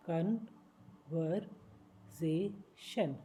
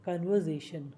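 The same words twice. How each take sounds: First: conversation stretched very slowly, each syllable apart. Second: Said in the usual way. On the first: Shown as a demonstration. Teacher slowing conversation down for learners. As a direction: break conversation into slow pieces.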